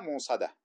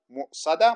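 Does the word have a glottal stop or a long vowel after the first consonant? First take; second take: long vowel; glottal stop. First: A long vowel follows the first consonant. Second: A glottal stop follows the first consonant. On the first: "وبدون همز" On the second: "بالهمز"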